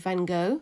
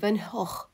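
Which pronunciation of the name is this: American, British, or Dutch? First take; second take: American; Dutch. First: The name is said the American way. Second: The name is said the original Dutch way. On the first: "in America he's called" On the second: "the original pronunciation is actually"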